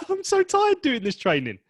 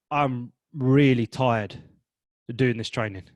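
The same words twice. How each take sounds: First: Very high, loud, cheerful tired; mismatched cheerful; upbeat wrong tone. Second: Slow, drained really tired; worn-out weary. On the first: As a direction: chirp it out happily. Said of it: "that's happy and that's upbeat". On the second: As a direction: sag with tiredness. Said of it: "the second one is, that's happy". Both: Shown as a demonstration.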